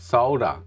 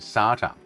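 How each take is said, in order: First: It is said in a non-American way. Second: It is said in an American way. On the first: The speaker calls it right. "The word is pronounced the way you read it" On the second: The speaker calls it wrong. "I don't know where the A comes from in the American language"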